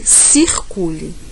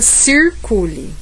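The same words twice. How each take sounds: First: It is said in a Northeastern Brazilian accent. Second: It is said in a São Paulo interior accent. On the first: "E no Nordeste" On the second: "No interior paulista"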